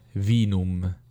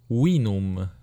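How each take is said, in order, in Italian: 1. Si pronuncia alla maniera ecclesiastica all'italiana. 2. Si pronuncia alla maniera latina classica. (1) "non vinum"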